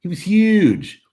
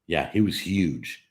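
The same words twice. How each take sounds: First: Huge said much higher, louder and slow; stress on huge. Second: Said in the usual way. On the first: Real, not acted. Streamer repeats to viewers how huge it was, emphatic. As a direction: stretch huge out big and loud. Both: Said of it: "Did I mention he was huge?".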